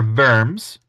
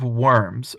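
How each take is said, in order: First: It begins with a V-like sound. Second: It begins with an English W sound.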